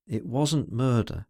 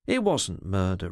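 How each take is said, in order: First: Slow, earnest denial; earnest insistence. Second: Said in the usual way. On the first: A narrator's reading. She insists to him it wasn't murder, earnest. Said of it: "she insisted earnestly".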